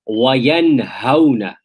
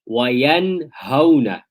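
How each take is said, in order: The two takes are said the same way.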